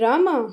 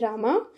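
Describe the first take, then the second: First: The name is said with a louder voice. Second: The name is said softly and gently. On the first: "उसके बाद थोड़ा आवाज़ तेज करनी है" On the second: "पहले प्यार से सॉफ्टली बोलना है, जैसे बहुत ही आ, प्यार से बोलना है"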